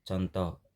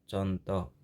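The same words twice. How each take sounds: Both takes have the same delivery.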